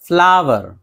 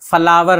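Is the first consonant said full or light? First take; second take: light; full. First: The first consonant is said lightly, without a vowel. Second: The first consonant is said full, with a vowel. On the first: The speaker calls it right. "हल्के सी फा की आवाज हल्की सी आएगी" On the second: The speaker calls it wrong. "फ्लावर नहीं"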